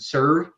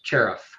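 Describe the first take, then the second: First: The name begins with an s sound. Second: The name begins with a ch sound. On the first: This is how most people say the name. The speaker calls it wrong. "people pronounce it Serve" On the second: This is how the name is really said. The speaker calls it right. "it's actually pronounced Cherif"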